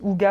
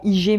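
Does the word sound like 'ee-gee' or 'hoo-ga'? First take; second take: hoo-ga; ee-gee. First: It is said like 'hoo-ga'. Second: It is said like 'ee-gee'. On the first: The speaker calls it right. "ça se dit" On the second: The speaker calls it wrong. "en France, on dit souvent"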